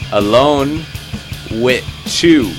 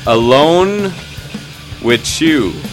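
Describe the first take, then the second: First: The last words 'with You' are emphasized. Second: The last words carry no special emphasis.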